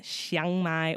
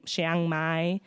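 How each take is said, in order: First: Chiang with an open 'ah', like 'shahng'; pronunciation variant. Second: Chiang with a short 'a', like 'shang'; pronunciation variant. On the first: Traveler offering listeners two versions of the name, open-vowel pronunciation. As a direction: say Chiang as 'shahng' before Mai. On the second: Traveler offering listeners two versions of the name, short-vowel pronunciation. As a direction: say Chiang as 'shang' before Mai. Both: Shown as a demonstration. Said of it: "if you don't know what I just said".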